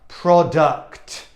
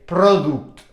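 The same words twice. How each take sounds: First: The second vowel sounds like 'uh'. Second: The second vowel sounds like 'oo'. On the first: The speaker calls it right. "the u in English is an uh" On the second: The speaker calls it wrong. "you would never say product"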